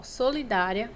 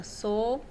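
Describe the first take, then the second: First: Said in the usual way. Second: "Solidária" said in separated parts, as when dividing syllables; split into syllables. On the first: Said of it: "quando eu separo a sílaba". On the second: Shown as a demonstration. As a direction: hold "So", pause, then finish "Solidária". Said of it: "quando eu separo a sílaba, ela fica dessa forma".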